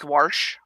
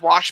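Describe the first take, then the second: First: It has an added R sound in it. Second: It has no R sound in it. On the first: "pronounce a fictional R there" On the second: "wash becomes"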